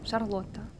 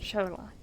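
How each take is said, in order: First: The name is said the Russian way. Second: The name is said the English way.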